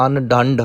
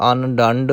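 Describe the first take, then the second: First: ਅਨ ਡੰਡ with a weighted, pressed d; heavy pronunciation. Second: ਅਨ ਡੰਡ with a light d; soft pronunciation. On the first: Retold or imitated. Teacher imitates reciters' error, ਅਨ ਡੰਡ said heavy. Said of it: "ਭਾਰਾ ਕਰ ਜਾਂਦੇ ਨੇ". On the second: Shown as a demonstration. Teacher corrects learners, ਅਨ ਡੰਡ said softly articulated. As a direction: keep ਡੰਡ soft, no pressure on it. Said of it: "ਇਸ ਲਈ ਪੋਲਾ".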